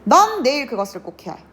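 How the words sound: The stress falls on the word 넌. The person who must do it is you, no one else. "내가 갑자기 여기에 강세를 줘요"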